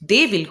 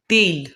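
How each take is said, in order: First: It is said as two full words. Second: It is said as one contracted word.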